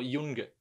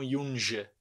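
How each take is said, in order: First: The middle consonant is a hard g sound. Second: The middle consonant is a soft j sound. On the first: The speaker calls it right. "eu falo Yunga" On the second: The speaker calls it wrong. "não Yunja"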